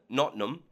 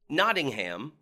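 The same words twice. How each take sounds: First: The name is said in a local Nottingham accent. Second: The name is said in a standard accent.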